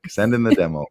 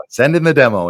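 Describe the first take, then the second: First: Said in the usual way. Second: Fast, louder, bright-eyed urging; eager push. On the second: Real, not acted. Host cheering a listener to send his demo, fast and louder. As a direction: hype the listener into sending it.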